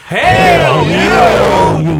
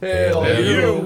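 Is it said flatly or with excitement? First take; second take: excitement; flatly. First: It is said with over-the-top excitement. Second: It is said flatly, without enthusiasm.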